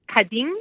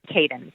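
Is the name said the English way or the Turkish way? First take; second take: Turkish; English. First: It is said with the Turkish pronunciation. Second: It is said with an anglicized pronunciation. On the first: This is the original word meaning woman. "In Turkish, it's pronounced Kadın" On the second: This is the company's chosen name. "so it's Caden"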